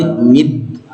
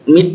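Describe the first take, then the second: First: Mid with a voiced, bouncing D; slow mid, D released with an echo; qalqalah D ending. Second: Mid ending in a breathed T; wrong T-like ending. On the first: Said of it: "kalau dia sukun qalqalah". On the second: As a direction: show the faulty mid, closed like mit. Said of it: "Jangan saya mid". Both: Shown as a demonstration.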